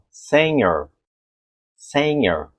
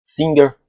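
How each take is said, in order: First: Singer with nh sound, like senhor; the native sound of singer. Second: Singer with a hard g; the spelling-led way to read it; wrong reading. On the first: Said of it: "o nativo vai falar assim". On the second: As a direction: Singer said like the written word. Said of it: "automaticamente eu falo o quê?". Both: Shown as a demonstration.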